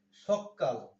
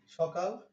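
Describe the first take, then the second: First: সকাল with the k doubled and held; doubled consonant. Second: Said in the usual way. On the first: Shown as a demonstration. Teacher doubling a sound for force, সকাল with double k. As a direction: break সকাল on a long, forceful k. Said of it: "শব্দে জোর দেওয়ার জন্য". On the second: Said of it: "এই বর্ণটার যে double হইল".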